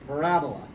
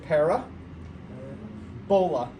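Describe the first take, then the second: First: The word is said smoothly without any break. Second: The word is split in two with a pause. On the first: The speaker calls it right. "You're going to smooth it all together" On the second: The speaker calls it wrong. "this is saying it wrong, but this is how you spell it"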